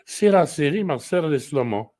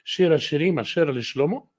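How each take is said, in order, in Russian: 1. Обычный 's' заменяет звук 'sh'. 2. Используется шипящий звук 'sh'. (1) "в египетской синагоге скажут" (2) "если в синагоге марокканской буду читать"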